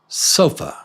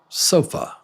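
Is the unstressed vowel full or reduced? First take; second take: reduced; reduced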